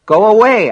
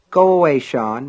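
First: High, loud, forceful dismissal; impatient mother raising her voice; exasperated mother. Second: Mild, offhand dismissal; busy mother brushing off her son; dismissive mother. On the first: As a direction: order the child out sharply. Mother repeats order, losing patience. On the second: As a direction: send the boy away without much force. Busy mother sends son away. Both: A narrator's reading.

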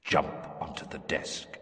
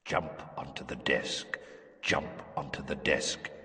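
First: Breathy far-off whisper; whispered command. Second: Low, soft and far away; a voice echoing in an empty head; distant echoing voice. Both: Acted. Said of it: "voice echoing in some distant chamber".

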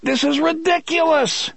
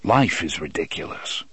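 First: Very high, exasperated shout. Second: Low, even, unruffled reply; calm retort. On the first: A narrator's reading. Eddie handed a knife by Roland, exasperated shout. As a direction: cry out in outraged disbelief. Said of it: "Eddie shouted". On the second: Acted. Roland replying to Eddie's outburst, unruffled. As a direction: answer calmly in a lower voice.

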